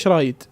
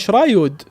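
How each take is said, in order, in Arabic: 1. تنتهي الكلمة بصوت "eed". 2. تنتهي الكلمة بصوت "ood". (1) "مو تقول له شرايد" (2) "المفروض تقول له شرايود"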